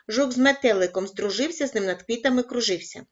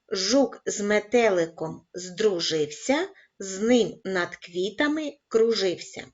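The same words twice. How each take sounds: First: It is read at a fast pace. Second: It is read at a very slow pace. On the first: "кожного разу пришвидшуючи темп" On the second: "розпочинаємо із повільного темпу"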